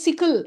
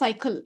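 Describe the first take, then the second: First: The first vowel is a short 'i' sound. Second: The first vowel is a long 'ai' sound. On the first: The speaker calls it wrong. "சிக்கிள் அப்படின்னு படிக்கிறப்பவே ஓ இது சைக்கிள் இல்லை" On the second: The speaker calls it right. "இந்த வார்த்தை வந்து சைக்கிள்"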